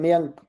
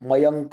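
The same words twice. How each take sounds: First: The word ends on a bare k with no vowel. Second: The word ends with a full 'ka' syllable. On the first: This is the everyday habitual way of saying it. The speaker calls it wrong. "अपने ऐसे व्यवहार में क्या बोलते हैं, मयंक, क को हलंत कर देते हैं" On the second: This is the correct Sanskrit way of saying it. The speaker calls it right. "मयंक को अगर वो सही से बोलना है तो ... क भी पूरा बोलना पड़ेगा"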